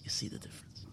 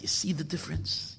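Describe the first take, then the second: First: Whispered question; hushed, secret-telling whisper. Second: Said in the usual way. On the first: Shown as a demonstration. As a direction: lean in and whisper it.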